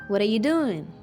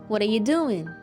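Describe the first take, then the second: First: What are you is squeezed together into a reduced form. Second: What are you is squeezed together into a reduced form.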